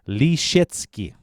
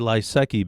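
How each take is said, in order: First: The middle syllable sounds like 'shet'. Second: The middle syllable sounds like 'sek'. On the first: This is the original form of the name. "The real pronunciation is Lishetsky" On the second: This is the Americanized form of the name. "that's the American pronunciation"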